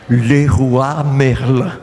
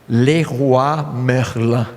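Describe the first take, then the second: No difference in how they are said.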